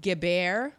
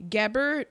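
First: "Gebert" as guh-BARE, silent T; tentative rising "Gebert", rhymed with bear; French-style pronunciation. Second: "Gebert" with a hard final T, stressed up front; English-style "Gebert", final T sounded; anglicized pronunciation. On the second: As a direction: say "Gebert" the English way, GEB-ert. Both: Shown as a demonstration. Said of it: "I don't know how it's pronounced".

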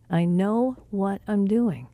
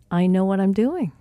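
First: "I know what I'm doing" slowed right down; measured, word-by-word insistence; slow, deliberate repeat. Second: Said in the usual way. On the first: Retold or imitated. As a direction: spell out each word slowly and firmly. Repeated reassurance, second take slower.

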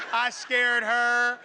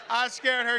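First: Slow words through laughter; laughing. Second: Said in the usual way. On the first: Real, not acted. Laughing about the scare.

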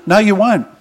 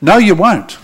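First: "No, you won't" with the weight on "won't"; stress on won't. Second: "No, you won't" with the weight on "you"; stress on you. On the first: Preacher rebutting hell-party Aussies, leaning on "won't". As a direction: land hard on "won't". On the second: Preacher repeats the rebuttal to the congregation, hitting "you". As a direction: point at them with "you". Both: Acted.

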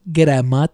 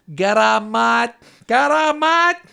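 First: Low, loud mock-Greek greeting; bad Greek accent. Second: Bad Greek accent. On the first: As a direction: put on a heavy, terrible Greek accent, deep and loud. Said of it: "Corbyn wants me to do this". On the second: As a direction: belt out a terrible Greek accent, rising on the repeat. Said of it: "that is a terrible Greek accent". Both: Shown as a demonstration.

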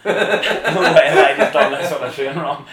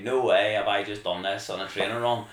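First: Much louder and higher, laughing through it; loud laughing no way, stressed high; laughing scream. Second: Loud, amazed, a laugh breaking in; loud disbelief with a chuckle; excited disbelief. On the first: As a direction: shriek it with joy, laughing. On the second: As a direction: say no way as if you can't believe it. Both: Retold or imitated. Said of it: "I was, like, screaming".

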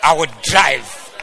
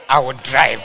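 First: Slower bold shout. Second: Mock bold shout. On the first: Pretend. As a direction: shout "I will drive" slowly, stretching each word. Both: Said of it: "God has given me a car".

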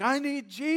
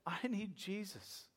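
First: High, urgent blurt; eager outcry. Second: Soft, slow retold confession; hushed plea. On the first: Acted. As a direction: cry out like someone suddenly hooked. Fish grabs hook, blurts plea. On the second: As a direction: confess it quietly and earnestly, as he did. Retells man's earnest confession.

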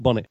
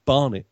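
First: "bonnet" with a short o; contrasted "bonnet". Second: "barnet" with a long ah and no r; Cockney "barnet". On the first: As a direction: say "bonnet" as BON-it, short first vowel. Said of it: "No, no, it's barnet". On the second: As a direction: say "barnet" as BAH-nit. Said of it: "not bonnet". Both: Shown as a demonstration.

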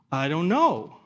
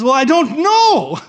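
First: Said in the usual way. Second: High, loud, drawn-out mock protest; exasperated protest. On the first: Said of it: "the thief on the cross goes". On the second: Thief answering the angel's challenge, loud exasperated protest. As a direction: protest helplessly, pitched way up and stretched out.

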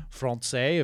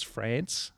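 First: Francais said "fron-say"; French-style "Francais" with a nasal first vowel; French pronunciation. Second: France with a short a, as in "pants"; everyday Aussie "France"; Australian pronunciation. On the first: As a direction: say Francais ending in "say". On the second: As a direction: say France with the vowel of "cat". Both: Shown as a demonstration. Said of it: "saying that word that particular way".

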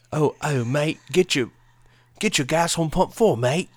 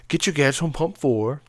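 First: Higher, louder put-on British accent; mock British accent. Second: Badly faked British accent, higher pitched; a tentative stab at British shop talk; attempted British accent. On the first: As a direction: lay on the British "mate" accent. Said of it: "that's better, right?". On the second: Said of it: "in British accents".

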